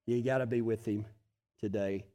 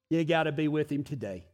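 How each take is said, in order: First: Soft repeat. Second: Said in the usual way. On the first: Shown as a demonstration.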